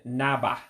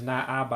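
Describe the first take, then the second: First: "naba" run together with one a; contracted naba. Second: "na aba" with both a's kept apart; uncontracted na aba. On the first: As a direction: merge it into "naba". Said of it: "I said naba". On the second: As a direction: spell out "na aba" as two words. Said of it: "Notice I didn't pronounce it as na aba". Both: Shown as a demonstration.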